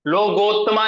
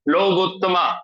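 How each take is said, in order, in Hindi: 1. दूसरा स्वर ओ की आवाज़ है। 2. दूसरा स्वर ऊ की आवाज़ है। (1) "लोगोत्तमा नहीं है, इसको हम कभी-कभी ओ ओ ओ जैसे पढ़ लेते हैं, ये गलत है।" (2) "हमेशा ऊ की तरह पढ़ना चाहिए"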